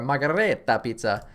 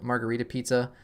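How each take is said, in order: First: Hammed-up Italian accent on margarita pizza; mock Italian accent. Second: Said in the usual way. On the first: Shown as a demonstration. To viewers, jokingly repeating the pizza in a mock Italian accent. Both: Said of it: "That's my Italian accent".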